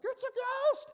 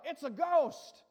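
First: Very high, loud mock shriek; hammed-up squeal of terror; comical terrified yell. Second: Loud, raised mock yell; retold yell. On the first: Preacher imitates disciples seeing a ghost, comical shriek. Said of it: "it almost sounds comical". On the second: Preacher quotes the terrified disciples, retold yell. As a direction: call it out as a retold cry. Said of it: "They yelled, what?".

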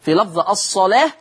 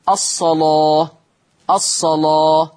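First: Said in the usual way. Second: الصلاة with a thick, darkened lam, slow and recited; slow recited الصلاة with heavy lam. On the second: Shown as a demonstration. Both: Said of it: "قرأ ورش بتغليظ اللام".

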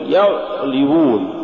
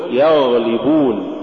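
First: يغلبون with the غ choked short; cut-off ghayn. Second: Said in the usual way. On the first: Shown as a demonstration. Teacher warning against an error, cut-off غ in يغلبون. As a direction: stop the flow of غ in يغلبون. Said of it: "ولا تقل". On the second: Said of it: "قل يغلبون".

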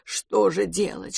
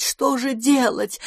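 First: Растерянно, тихо и медленно; пробормотать себе под нос в панике. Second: Паника нарастает, выше и медленно; метаться и повторять всё тревожнее; в панике. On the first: (растерянное бормотание, тихо) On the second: (паническое причитание, выше) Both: A narrator's reading. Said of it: "заламывая лапы и приговаривая".

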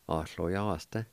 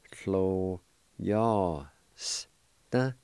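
First: Said in the usual way. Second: "clo yas da" drawn out slowly, syllable by syllable; careful pronunciation. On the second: Shown as a demonstration. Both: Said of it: "is pronounced like this".

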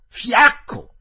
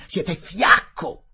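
First: Much higher, louder repeat of fiacco; shouted insult. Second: Contemptuous insult. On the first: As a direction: hurl the word fiacco as a scream. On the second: Collector calls Fielding weak. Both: Acted.

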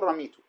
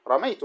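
First: "رميت" said ramītu with a long i; "رميت" with kasra, ra-mī-tu, marked as wrong; "رميت" with a long i sound; wrong form. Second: "رميت" said ramaytu, ay diphthong kept; "رميت" with fatha, ra-may-tu; "رميت" with a clear open ay; correct form. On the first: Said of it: "ما تقول". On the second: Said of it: "ماذا تقول". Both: Shown as a demonstration.

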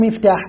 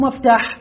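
First: كسر الميم في "مفتاح"; انطق "مفتاح" بميم مكسورة، مِفتاح. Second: فتح الميم في "مفتاح"; انطق "مفتاح" بميم مفتوحة، مَفتاح. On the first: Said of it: "بكسر الميم". ("مفتاح" بكسر أوله) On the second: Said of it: "بالف-، بالفتح". ("مفتاح" بفتح أوله) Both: Shown as a demonstration.

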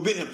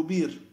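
First: بئر with a glottal stop in the middle; with hamza. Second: بير with a long i, no glottal stop; without hamza. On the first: (بئر بالهمزة) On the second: (بير بدون همزة) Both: Shown as a demonstration. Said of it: "شخص يقول".

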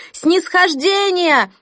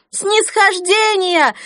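First: Slow, high, loud chanting cry; crowd shout. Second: Repeated even higher, slow loud cry; crowd shout. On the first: (выкрик толпы) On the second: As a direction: echo the chant, higher still. (повторный выкрик толпы) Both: Acted. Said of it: "зал взорвался от женских криков".

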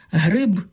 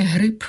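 First: Гриб ends in a clear voiced б; voiced final б. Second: Гриб said as грип, ending in п; гриб pronounced грип, the wrong form; devoiced final. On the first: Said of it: "а не гриб". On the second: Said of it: "а не". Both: Shown as a demonstration.

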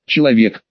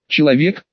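First: "Человек" low, with a falling end; matter-of-fact statement. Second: "Человек" with a rising question tune; questioning echo. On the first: Fighter answering the demon, "Человек" as a low falling statement. Ответ демону, утверждение. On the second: Demon doubting the fighter's answer, "Человек" as a rising question. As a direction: echo "Человек" back as a question, lifting the end. Демон переспрашивает с недоверием. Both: A narrator's reading.

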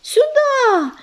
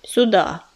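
First: High breathless shout. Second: Low gruff mutter; grumbling. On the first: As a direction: call it out urgently. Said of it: "выкрикнул". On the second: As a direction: grumble it curtly. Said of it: "буркнул он". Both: A narrator's reading.

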